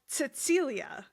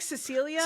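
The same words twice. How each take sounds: First: The name is said with a German accent. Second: The name is said with an English accent. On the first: "but like German. So like Cecilia" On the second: "It's like Cecilia"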